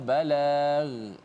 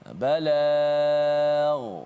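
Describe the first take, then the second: First: The final gh sound is thin and light. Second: The final gh sound is thick and heavy. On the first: The speaker calls it wrong. "yang salahnya balagh, menipiskan ghain" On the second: The speaker calls it right. "balagh tebal"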